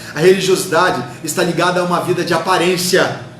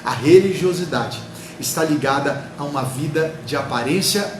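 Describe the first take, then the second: First: The sentence is spoken at a quick pace. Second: The sentence is spoken slowly and calmly. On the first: "Às vezes a gente fala muito rápido" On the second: "Vou falar de novo, pausadamente"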